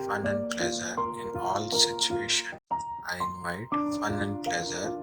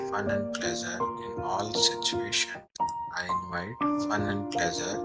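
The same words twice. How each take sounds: The two takes are said the same way.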